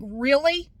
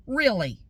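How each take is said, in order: First: Loud, high, rising question; incredulous. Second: Loud, falling, unimpressed rebuke; exasperated disbelief. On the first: Customer to staff ignoring her in Spanish, incredulous. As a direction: challenge them with a disbelieving upturn. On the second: Customer rebuking staff for switching language, exasperated. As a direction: drop it like a scolding, not a question. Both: Retold or imitated.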